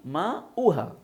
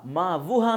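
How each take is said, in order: First: No w sound is said mid-word. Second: A clear w sound is said mid-word. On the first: The speaker calls it right. "वाव को नहीं पढ़ा जाएगा" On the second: The speaker calls it wrong. "माँ वो हा नहीं"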